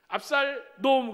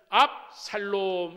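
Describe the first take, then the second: First: It is split after 압살, sounding like an insult. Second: It is split after 압, as 압 샬롬.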